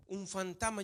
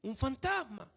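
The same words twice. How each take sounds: First: Said in the usual way. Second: "Un fantasma" exclaimed a bit higher, "fantasma" falling; mildly scared disciples exclaiming; frightened exclamation. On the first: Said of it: "yo me imaginaba así como una voz". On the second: Shown as a demonstration. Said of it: "hay signos de exclamación ahí".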